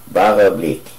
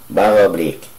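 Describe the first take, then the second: Both takes have the same delivery.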